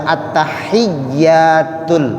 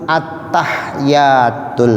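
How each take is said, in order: No difference in how they are said.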